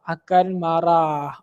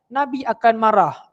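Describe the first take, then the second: First: Akan marah drawn out very slowly and lower; slow emphatic repeat. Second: Said in the usual way. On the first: Shown as a demonstration. Teacher repeating to pupils that the Prophet will be angry, very slow and weighty. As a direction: lean on each word so it sinks in.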